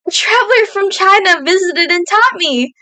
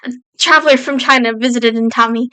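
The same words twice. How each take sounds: First: It is read in a happy tone. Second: It is read in a sad, tearful tone.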